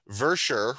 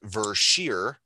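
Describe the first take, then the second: First: The last syllable sounds like 'sher'. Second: The last syllable sounds like 'sheer'. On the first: The speaker calls it wrong. "as I was pronouncing it the whole time" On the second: The speaker calls it right. "is actually pronounced Vershear"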